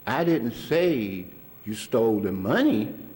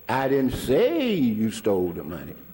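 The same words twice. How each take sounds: First: The word money carries the main stress. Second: The word say carries the main stress. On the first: Something other than the money was stolen. "but you could have stole something else" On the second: It was thought but not said aloud. "which the inference is, I thought so"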